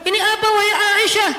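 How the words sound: It is said in a loud, declaiming sermon tone. The speaker calls it wrong. "Kalau nada khutbah"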